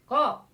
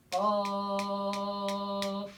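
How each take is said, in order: First: Said in the usual way. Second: "Qaf" held very long on one level note; six-beat elongation. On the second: Shown as a demonstration. Teacher demonstrating six harkat to students, "Qaf" sustained. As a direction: stretch the vowel of "Qaf" steadily before closing it. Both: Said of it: "Nah, enam harkat".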